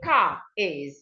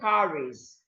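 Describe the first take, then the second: First: The R is not linked to the next word. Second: The R links smoothly into the next word. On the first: The speaker calls it wrong. "Instead of saying" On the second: The speaker calls it right. "you are saying"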